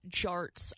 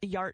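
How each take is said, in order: First: The word begins with a J sound. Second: The word begins with a Y sound. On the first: The speaker calls it right. "It's Jarts" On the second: The speaker calls it wrong. "I was pronouncing the J as a Y"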